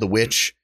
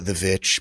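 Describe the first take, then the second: First: The word begins with a W sound. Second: The word begins with a V sound. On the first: "The other movie he did is called" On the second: "People call it The Vitch because it's stylized with two V's"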